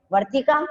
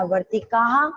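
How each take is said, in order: First: Said in the usual way. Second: वर्तिका ending in an audible breathy ha, वर्तिकाः; वर्तिका with a rising breathy ending; plural with visarga. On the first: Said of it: "अगर यहाँ बहुत सारी बतख होती तो क्या बनता?". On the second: Shown as a demonstration. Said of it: "बहुवचन में आता".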